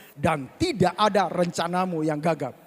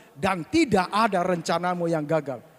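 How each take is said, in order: Both takes have the same delivery.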